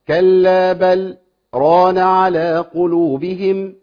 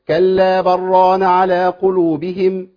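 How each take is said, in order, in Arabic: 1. يوجد سكت قصير بين 'bal' و'ran'. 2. 'Bal' يتصل مباشرة بـ'ran' دون سكت. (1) "نعملها سكت بقى" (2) "طب من غير سكت"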